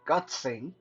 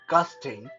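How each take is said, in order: First: The word ends with a 'tsing' sound. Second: The word ends with a 'sting' sound. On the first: "all kind of weird uh, pronunciation" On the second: "a lot of people uh, I know like to pronounce that"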